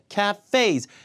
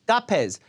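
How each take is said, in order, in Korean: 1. 강세는 두 번째 음절에 있어요. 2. 강세는 첫 번째 음절에 있어요. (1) "뒤에 강세해줘야 돼요" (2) "아예 못 알아듣는다는 얘기예요"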